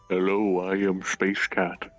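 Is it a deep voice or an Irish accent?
deep voice. It is said in a very deep voice.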